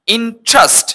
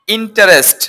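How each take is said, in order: First: ইন্টারেস্ট in two high beats, "IN-trast"; correct pronunciation. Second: ইন্টারেস্ট in three syllables, "in-ta-REST"; common mispronunciation. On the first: Teacher models the fix for students, corrected pronunciation. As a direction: drop the middle vowel of ইন্টারেস্ট. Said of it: "এটার correct pronounce". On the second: Teacher quotes what people usually say, mispronounced. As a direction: voice the middle "ta" of ইন্টারেস্ট. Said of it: "not ইন্টারেস্ট". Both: Shown as a demonstration.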